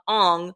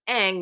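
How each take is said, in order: First: The name has the film's vowel sound. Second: The name has the show's vowel sound. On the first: This is how the live-action film says it. The speaker calls it wrong. "not Aang" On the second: This is the character's actual name. The speaker calls it right. "if you watch the show, it's Aang"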